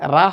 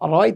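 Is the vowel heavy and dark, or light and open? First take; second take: light; heavy. First: The vowel is light and open, like 'ra'. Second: The vowel is dark and rounded, like 'ro'. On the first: The speaker calls it wrong. "রা হবে না" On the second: The speaker calls it right. "র রয় থাকবে"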